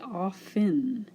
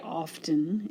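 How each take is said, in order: First: The T sound is silent. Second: The T sound is pronounced. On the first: "we just say often, and we don't even say that T" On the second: "You can say often if you like. That's another way to say this word"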